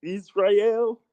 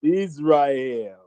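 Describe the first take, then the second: First: ISRAEL as iz-RYE-el, rising high like a question; checking a pronunciation. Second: ISRAEL said iz-RYE-el, falling at the end; trying a pronunciation. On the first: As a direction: query "Israel" with a RYE middle and lifted end. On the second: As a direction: sound out "Israel" with a RYE middle, landing it. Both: Shown as a demonstration. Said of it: "That's how you say it?".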